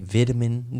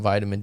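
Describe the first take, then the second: First: Vitamin is said with a British pronunciation. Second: Vitamin is said with an American pronunciation.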